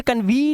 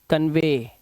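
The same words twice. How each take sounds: First: कन्वी ending in a long ee; misreading कन्वी, kan-vee; wrong pronunciation. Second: कन्वे ending in a long ay; teacher's lower-pitched model कन्वे, vay not vee; correct pronunciation. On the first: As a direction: say कन्वी with a raised, stretched vee at the end. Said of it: "अब इसे कन्वी नहीं पढ़ना है". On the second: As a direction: say कन्वे low, as kan-vay. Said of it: "ईवाई का उच्चारण अक्सर ए होता". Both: Shown as a demonstration.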